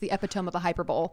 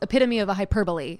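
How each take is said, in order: First: Hyperbole is pronounced in an odd way. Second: Hyperbole is pronounced the standard way. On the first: The speaker calls it wrong. "his joke is" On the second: The speaker calls it right. "is how you would actually say it"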